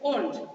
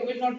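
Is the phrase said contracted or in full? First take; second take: contracted; full. First: It is said as one contracted word. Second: It is said as two full words. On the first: The speaker calls it right. "সে বলে ওন্ট" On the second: The speaker calls it wrong. "উইল নট বলে না"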